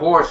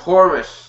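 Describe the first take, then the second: First: The word is said as one syllable. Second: The word is said as two syllables. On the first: The speaker calls it wrong. "Not horse" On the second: The speaker calls it right.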